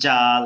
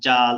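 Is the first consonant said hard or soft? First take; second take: hard; hard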